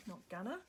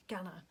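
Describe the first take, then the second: First: Said in the usual way. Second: Put-on "gonna" in an Australian accent, open "gah-na". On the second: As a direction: say "gonna" the Aussie way. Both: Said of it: "Do you like my Australian accent?".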